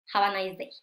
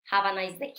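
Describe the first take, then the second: No difference in how they are said.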